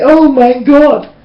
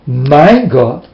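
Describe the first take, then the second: First: Drawn-out, throwaway "Oh my God" said high and slow; careless exclamation. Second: Mean "My God" for real, calmly; sincere. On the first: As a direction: toss off "Oh my God" as an empty habit. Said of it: "And when they say". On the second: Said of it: "they never mean". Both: Retold or imitated.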